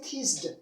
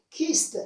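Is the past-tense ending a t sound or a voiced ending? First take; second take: voiced; t sound. First: The ending is a voiced d or id sound. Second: The ending is a voiceless t sound. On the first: The speaker calls it wrong. "So we don't say kissed" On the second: The speaker calls it right. "So you can pronounce them as T"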